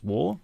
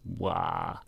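First: The vowel rhymes with sore and raw. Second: The vowel is an open ah sound. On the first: "if you're of English descent, it's a pretty given. It's War, as in sore and raw" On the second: "But if you're American or from certain parts of Australia, it's Wah"

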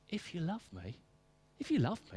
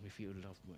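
First: The voice sounds warm and tender. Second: The voice sounds stern and demanding. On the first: Obedience flows naturally from love. The speaker calls it right. "No, it's" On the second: Obedience is required as a threat. The speaker calls it wrong. "get the tone of that. It's not"

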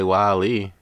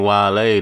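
First: The name sounds like the word 'whale'. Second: The name does not sound like 'whale'. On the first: The speaker calls it wrong. "don't say [name]" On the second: The speaker calls it right. "[name] said my name [name]"

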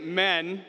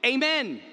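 First: The word is clipped, missing its first syllable. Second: The word is fully and clearly enunciated. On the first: The response is given carelessly. The speaker calls it wrong. "Some say" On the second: The response is a serious statement of belief. The speaker calls it right. "you are supposed to say and enunciate"

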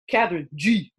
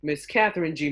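First: The name is said in a tough, swaggering style. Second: The name is said in a plain, ordinary style. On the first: The speaker calls it right. "Now I said it more gangster" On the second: The speaker calls it wrong. "I didn't even say it like that"

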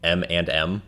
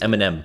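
First: The middle 'and' is clearly and fully pronounced. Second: The middle 'and' is reduced to a short sound. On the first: "how weird it would sound if you said M&M" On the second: "Everyone just says M&M"

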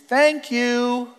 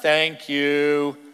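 First: It is said in a warm, sincere tone. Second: It is said in a flat, grudging tone. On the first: The speaker genuinely means it. The speaker calls it right. "It's thank you, right? You catch the difference?" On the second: The speaker does not really mean it. The speaker calls it wrong. "It's not thank you"

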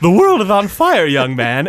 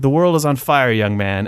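First: It is said in a put-on Snagglepuss voice. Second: It is read in his normal voice.

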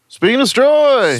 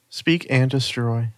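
First: It is said loudly and forcefully. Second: It is said softly and quietly.

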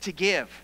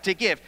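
First: It is said in a happy, bright tone. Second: It is said in a happy, bright tone.

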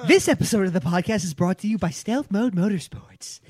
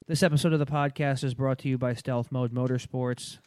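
First: It is read with interested, lively expression. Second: It is read in a flat monotone.

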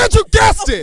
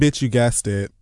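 First: It is said loudly in an exaggerated put-on voice. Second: It is said in a plain, ordinary speaking voice. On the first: The speaker calls it right. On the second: The speaker calls it wrong.

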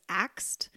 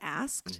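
First: The consonants are said as 'ks', like axed. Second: The consonants are said as 'sk', like asked. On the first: "my middle daughter always says axed instead of asked" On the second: "instead of asked"

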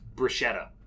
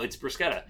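First: The word is pronounced in an anglicized way. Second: The word is pronounced in an Italian way. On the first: "I grew up saying bruschetta" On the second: "even if you don't pronounce it like an Italian"

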